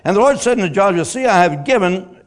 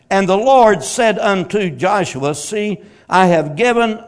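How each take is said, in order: First: It is read fast. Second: It is read slowly.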